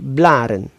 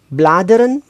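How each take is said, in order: First: The d sound is dropped. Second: The d sound is pronounced. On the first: This is the informal form. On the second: This is the full form.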